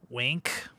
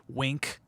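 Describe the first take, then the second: No difference in how they are said.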